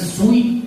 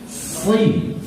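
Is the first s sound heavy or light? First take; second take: light; heavy. First: The s sound is light and thin. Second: The s sound is heavy and thick. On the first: The speaker calls it wrong. "bukan sui" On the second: The speaker calls it right. "Dia tebal dan melekat lidahnya"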